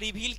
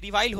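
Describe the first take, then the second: First: The second syllable has an 'ee' vowel. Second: The second syllable has an 'eye' vowel. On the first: The speaker calls it wrong. "कई जगहों मैंने रिवील कह दिया, मैं माफी चाहूंगा उसके लिए" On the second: The speaker calls it right. "रिवाइल होता है ये इसका प्रोनाउंसिएशन"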